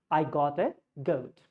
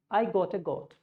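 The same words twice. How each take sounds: First: Goat with a clear OU glide. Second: Goat said with a plain O; flat goat. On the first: Teacher showing the right goat. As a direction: say goat gliding from O to U. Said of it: "So you would say". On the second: Teacher showing how a normal speaker says it. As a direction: say goat like got. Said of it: "normal speaker would say". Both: Shown as a demonstration.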